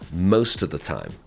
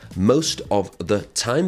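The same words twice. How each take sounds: First: The words run together with reduced sounds. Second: Each word is said separately and fully.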